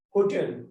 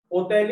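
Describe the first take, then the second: First: Said in the usual way. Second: "Hotel" with the H dropped, starting on the O; silent H. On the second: Shown as a demonstration. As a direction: say "Hotel" the French way, no H sound. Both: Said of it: "We are not pronouncing this H".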